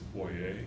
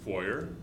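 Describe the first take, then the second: First: The word is pronounced in a fancier, refined way. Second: The word is pronounced in a plain, homely way. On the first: The way a more refined speaker might say it. "if you're like, unlike me and didn't grow up on a hog farm, maybe it's foyer" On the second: The speaker's own rural way of saying it. "unlike me and didn't grow up on a hog farm"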